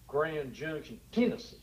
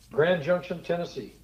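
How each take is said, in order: First: It is said in a local Tennessee accent. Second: It is said in the speaker's plain accent.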